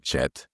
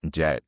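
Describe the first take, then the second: First: The word begins with a sh sound. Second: The word begins with a j sound. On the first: The speaker calls it wrong. "we may say chet, which doesn't sound good" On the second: The speaker calls it right. "instead of saying like jet"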